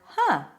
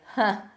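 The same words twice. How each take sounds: First: It sounds intrigued and thoughtful. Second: It sounds amused, like a short laugh. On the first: Something is interesting. "huh, interesting" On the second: Something is funny. "huh, funny"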